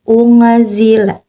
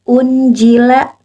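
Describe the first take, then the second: First: The n sound is hidden and nasalized. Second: The n sound is pronounced clearly. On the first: The speaker calls it right. "tapi jadi unzila" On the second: The speaker calls it wrong. "bukan unjila"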